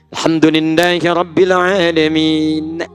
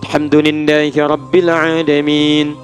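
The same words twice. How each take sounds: First: The last word ends with a final vowel. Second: The last word ends on a bare consonant. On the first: The speaker calls it wrong. "Enggak ada" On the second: The speaker calls it right. "Ujungnya a, tapi in"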